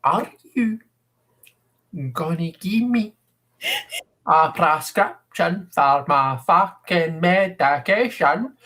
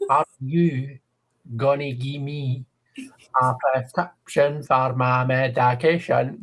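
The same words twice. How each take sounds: First: Put-on slow, drawn-out Scottish accent, pushed higher; exaggerated slow Scottish accent. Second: 1 imitating a Scottish woman. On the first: Scottish woman asks for her medication again, slow, exaggerated Scottish accent. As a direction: stretch every word like an exaggerated Scottish patient. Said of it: "just a little bit more slowly?". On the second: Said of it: "the way she speaks".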